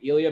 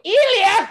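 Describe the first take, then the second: First: The name is said at normal volume. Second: The name is screamed as loudly as possible. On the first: "it's like Ilya" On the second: "I scream it as loud as I can because I get pumped up"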